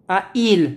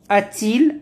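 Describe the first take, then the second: First: The vowels meet directly with no t sound. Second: A t sound links the two vowels. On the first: The speaker calls it wrong. "On ne dit pas comme" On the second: The speaker calls it right. "on met le T"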